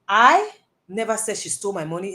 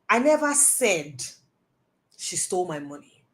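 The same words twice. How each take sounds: First: The word 'I' is stressed. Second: The word 'said' is stressed. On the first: Someone else said it, not the speaker. "I'm saying that me, I didn't say it too" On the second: The speaker implied it but did not say it. "I may have implied it, but that's not what I said"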